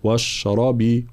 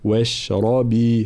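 First: واشربي with a thick, emphatic ra and heavy letters; wrong heavy ra. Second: واشربي with only the ra heavy, other letters light, slowly; correct light letters. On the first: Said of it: "فلا نقول واشربي". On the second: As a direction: say واشربي correctly, slow and careful. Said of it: "هكذا". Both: Shown as a demonstration.

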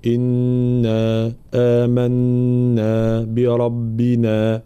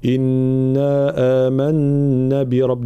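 First: "إنا آمنا بربنا" very slowly, every long vowel held the same length; equal long vowels. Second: "آمنا" with its long vowel cut short, showing the mistake; wrong recitation. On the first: Teacher modelling equal vowel lengths, very slow. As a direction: stretch each madd in "آمنا" evenly. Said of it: "مدود متتالية متساوية". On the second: Teacher demonstrating a shortened madd error. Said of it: "معناها نحذف المد أو ننقص فيه". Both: Shown as a demonstration.

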